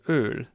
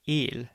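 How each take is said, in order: First: The vowel is said with rounded lips. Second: The vowel is said with spread lips.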